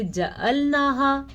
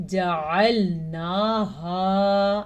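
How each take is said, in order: First: جعلناها without the ain; wrong recitation. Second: جعلناها with a firm throat ain; clear ain. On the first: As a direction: drop the ع in جعلناها to a plain vowel. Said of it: "آپ ایک لفظ کو ہی الٹ پڑھ رہے ہیں". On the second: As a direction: squeeze the ع in جعلناها from the throat, drawn out. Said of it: "آپ نے کیا پڑھنا ہے". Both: Shown as a demonstration.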